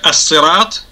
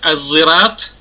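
First: The word is said with an emphatic, heavy s sound. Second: The word is said with a z sound. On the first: "через сад" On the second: "через букву зай или зин"

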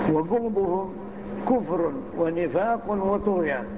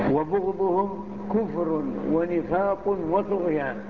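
Both takes have the same delivery.

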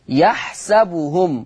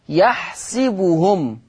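First: The s sound is followed by an a vowel. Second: The s sound is followed by an i vowel.

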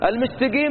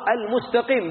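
First: The q is said as a hard g sound. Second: The q is said as a deep q sound. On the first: The speaker calls it wrong. "ما في القرآن حرف قاء قاء كلها قاف" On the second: The speaker calls it right. "بلسان عربي مبين"

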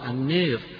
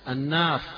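First: The long vowel is bent strongly toward 'e'. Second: The long vowel is a fully open 'a'. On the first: "بالإمالة" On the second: "قراءها مفتوحة"

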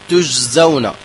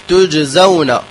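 The two takes are said the same way.

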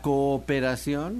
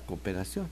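First: Both vowels are pronounced fully and separately. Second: The two vowels merge into one short vowel. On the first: "o decimos la cooperación, no" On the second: "decimos la cooperación"

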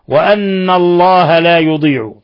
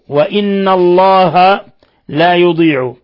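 First: The word after wa begins with a. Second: The word after wa begins with i. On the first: "بفتح الهمزة" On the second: "بكسر همزة"

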